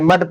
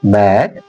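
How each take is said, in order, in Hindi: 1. स्वर 'cut' के छोटे 'u' जैसा है। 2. स्वर 'cat' के खुले 'a' जैसा है। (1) "इसे मड पढ़ा करते थे" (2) "एम ए डी मैट"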